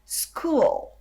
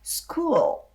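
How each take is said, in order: Both takes have the same delivery.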